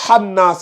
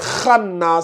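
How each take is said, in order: First: The word starts with a soft, plain h sound. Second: The word starts with a rough, throaty kh sound. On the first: The speaker calls it wrong. "C'est pas hannas" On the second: The speaker calls it right. "c'est khannas, c'est kha"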